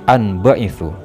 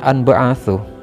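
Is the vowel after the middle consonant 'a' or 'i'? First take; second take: i; a. First: The vowel after the middle consonant is 'i'. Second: The vowel after the middle consonant is 'a'. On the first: The speaker calls it right. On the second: The speaker calls it wrong.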